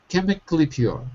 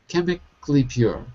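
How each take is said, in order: Both takes have the same delivery.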